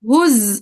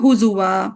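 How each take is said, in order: First: The z is vowelless and followed by a glottal stop. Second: The z is followed by a vowel and w-sound. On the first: This is another reading tradition's version. "वाव को हमजा में चेंज कर देंगे" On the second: This is one reading tradition's version. "Hafs का हो गया हुजुआ"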